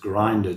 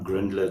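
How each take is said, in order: First: The name has no L sound before the ending. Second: The name has an L sound before the ending. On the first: The speaker calls it right. "it's Grinder" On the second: The speaker calls it wrong. "I keep saying Grindler, it's not Grindler"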